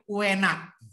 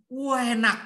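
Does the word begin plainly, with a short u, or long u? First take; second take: short u; long u. First: The word starts with a short u sound. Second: The word starts with a long, drawn-out u. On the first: The speaker is from eastern Central Java. "Jawa Tengah bagian timur, ada u-nya" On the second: The speaker is from East Java. "Udah Jawa Timur dipanjangin lagi"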